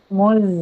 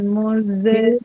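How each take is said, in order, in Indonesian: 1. Z berakhir bersih, tanpa vokal setelahnya. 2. Bunyi z dilepas dengan vokal tambahan yang memantul. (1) "Tapi muz" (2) "Jangan muze. Jangan mantul"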